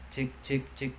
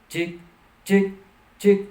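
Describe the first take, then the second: First: It is said at a normal talking loudness. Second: It is shouted at a much higher loudness. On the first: "Saya ngobrol seperti ini" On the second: "Saya mencoba teriak ya"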